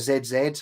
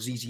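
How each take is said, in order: First: The letters are said as British zed zed. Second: The letters are said as American zee zee.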